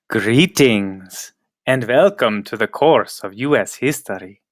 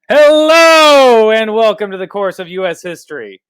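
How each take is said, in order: First: It is said in a creepy voice. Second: It is said in a normal voice.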